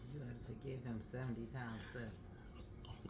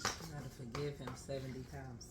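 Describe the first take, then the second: First: It is said at normal, quieter volume. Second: It is said louder.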